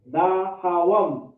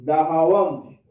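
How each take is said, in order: First: DAHAWAM slow, syllables drawn out and separated; slow demonstration. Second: Said in the usual way. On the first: Shown as a demonstration. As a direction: stretch "Dahawam" out for learners. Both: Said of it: "is how to say".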